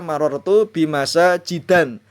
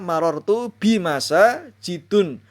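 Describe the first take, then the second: First: The last word ends in an. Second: The last word ends in un. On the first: "Tidak boleh dibaca" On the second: "Tidak boleh dibaca"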